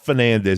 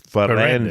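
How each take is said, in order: First: The middle syllable begins with an n sound. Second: The middle syllable begins with an r sound. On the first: The speaker calls it wrong. "It's not Fernandez" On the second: The speaker calls it right. "It's Ferrandez, like veranda"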